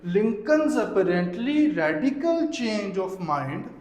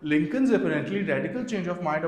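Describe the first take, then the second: First: Every word is pushed with heavy, forced stress. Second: Only the important words get light extra stress. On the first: The speaker calls it wrong. "ये बिल्कुल भी stress नहीं है" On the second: The speaker calls it right. "जो बात important है, आप उसको थोड़ा हाईलाइट करो"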